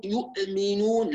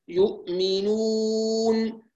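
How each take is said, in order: First: يؤمنون with the hamza jolted and cut; قلقلة خاطئة للهمزة; bouncing hamza mistake. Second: Slow يؤمنون with rounded-back lips on the hamza; نطق صحيح بطيء; correct hamza. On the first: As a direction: knock the hamza of يؤمنون, the wrong way. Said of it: "بعض الناس يقول". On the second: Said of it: "إرجاع الشفتين". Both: Shown as a demonstration.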